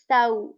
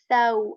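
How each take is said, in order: The two takes are said the same way.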